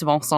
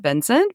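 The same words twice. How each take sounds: First: "Vincent" said the French way; "Vincent" with French nasal vowels, silent t; French pronunciation. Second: "Vincent" said the American English way; "Vincent" with English vowels and a sounded t; American pronunciation. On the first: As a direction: say "Vincent" as van-SAHN. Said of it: "he's French and it's". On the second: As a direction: say "Vincent" as VIN-sent. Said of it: "in America we would pronounce it". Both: Shown as a demonstration.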